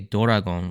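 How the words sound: It is said with a Japanese accent.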